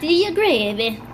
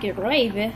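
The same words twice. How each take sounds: First: It is said in an Italian-style accent. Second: It is said in the speaker's plain accent. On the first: The speaker calls it wrong. "That's Italian" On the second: The speaker calls it right. "I should have been like"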